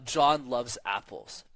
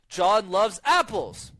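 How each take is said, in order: First: The pitch falls at the end. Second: The pitch rises high at the end. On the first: The speaker calls it right. "Y becomes the answer" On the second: The speaker calls it wrong. "never speak in a high tone at the end of a sentence... me making the mistake"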